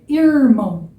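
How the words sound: The R sounds like an English R. "bem parecido com o, inglês, com o R do inglês"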